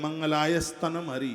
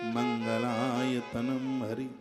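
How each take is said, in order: First: The middle word begins with an added s sound. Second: The middle word begins with t and ends am. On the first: The speaker calls it wrong. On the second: The speaker calls it right.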